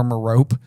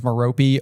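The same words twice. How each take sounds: First: Merope said as "muh-ROPE"; two-syllable pronunciation. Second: Merope said as "muh-ROH-pee"; three-syllable pronunciation. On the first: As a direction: leave the final e of Merope silent. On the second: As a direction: sound the final e in Merope as "ee". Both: Shown as a demonstration. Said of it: "there's two pronunciations".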